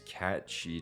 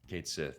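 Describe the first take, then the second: First: The name ends with a 'shee' sound. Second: The name ends with a 'sith' sound. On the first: The speaker calls it wrong. "Oh, I mean" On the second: The speaker calls it right. "the right way to say it"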